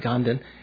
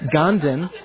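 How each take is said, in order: First: The name is said without a Texas-like accent. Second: The name is said with a Texas-like accent. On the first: The speaker calls it right. "even the Tibetans usually say Ganden" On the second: The speaker calls it wrong. "Sounds like a Texas accent"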